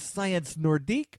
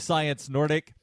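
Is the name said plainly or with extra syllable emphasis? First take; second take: emphasized; plain. First: It is said with extra emphasis on a syllable. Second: It is said plainly, without extra syllable emphasis. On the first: "adding that sort of emphasis on the syllable sounds a little different" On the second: "It might just be Science Nordic"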